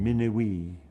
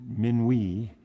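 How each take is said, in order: First: It is said with one extra syllable added. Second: It is said with the usual French syllables. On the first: "gets this extra syllable when you're saying it in African pronunciation" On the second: "minuit in French"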